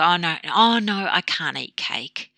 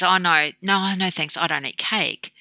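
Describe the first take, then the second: First: Slight victim. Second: Easy, breezy polite refusal; empowered refusal. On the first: Dieter offered a piece of cake, slight victim refusal. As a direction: drag it out like someone deprived, lightly acted. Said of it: "this kind of slight victim where you can't". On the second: The cake comes around to the dieter, empowered refusal. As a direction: decline briskly, as a settled matter. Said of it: "you are empowered then by saying". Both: Retold or imitated.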